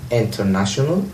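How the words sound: The t after the n is pronounced. "البريطانيون بينطقون هذا الحرف كما هو"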